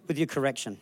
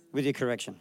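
Both takes have the same delivery.

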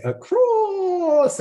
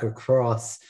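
First: Hammed-up film character impression, higher and hugely drawn out; H W Plainview. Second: Said in the usual way. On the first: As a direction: stretch ACROSS into a long theatrical cry. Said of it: "H W Plainview would say". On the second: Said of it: "or as, uh, H W Plainview would say".

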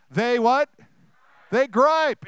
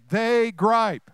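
First: They gripe, said louder and higher with energy; rally the crowd, punch the word gripe; louder call and response. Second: Said in the usual way. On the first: Shown as a demonstration. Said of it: "let's try it again". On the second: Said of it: "Let's say it".

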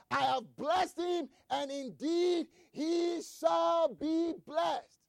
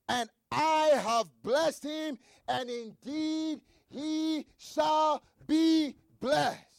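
First: Slow, stressed proclamation; emphatic preaching. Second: Drawn-out, weighty words; slow emphatic reading. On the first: Preacher repeating Isaac's words to the church, emphatic. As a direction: drive the words home. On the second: Preacher reading Isaac's reply, slow and weighty. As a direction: lean on each word of the blessing. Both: Acted.

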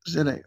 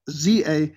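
First: Said in the usual way. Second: "Z" said as "zee"; American Z. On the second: Shown as a demonstration. Giving listeners the email address, "Z" as American "zee". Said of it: "the way the Americans would pronounce".

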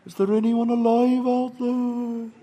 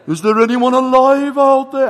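First: Put-on drawn-out Welsh-accented distant call; slow, sustained Welsh search call; rough Welsh accent. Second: Put-on loud, drawn-out Welsh-accented search call; slow Welsh call at full volume. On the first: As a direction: call slowly across water in an amateur Welsh accent. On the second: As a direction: holler slowly across water in an amateur Welsh accent. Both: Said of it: "my Welsh accent isn't great".

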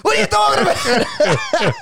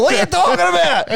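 First: Drawn-out mock shout. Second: Mock shout. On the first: Footballer repeating his retort to the interviewer, slow stretched shout. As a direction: drag out "What are you talking about?" in disbelief. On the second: Footballer snapping back at the interviewer, quick mock shout. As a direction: fire off "What are you talking about?" in one outraged burst. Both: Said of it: "It's like".

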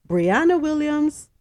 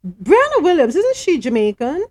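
First: Said in the usual way. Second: Higher, louder double take on the name; surprised question. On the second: Real, not acted. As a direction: break off reading to check, surprised. Stops reading, questions a familiar name.

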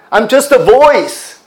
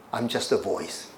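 First: I'm just a voice, high and loud with a fall; proclaiming. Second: "I'm just a voice" dropped low and soft; soft, humble. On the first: Preacher voicing John the Baptist, bold loud proclamation. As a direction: declare "I'm just a voice" boldly to the crowd. John's humble claim, first take. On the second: Preacher repeating John the Baptist's words, hushed and humble. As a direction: let "I'm just a voice" fall away humbly. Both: Retold or imitated.

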